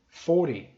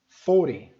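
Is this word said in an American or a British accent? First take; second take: American; American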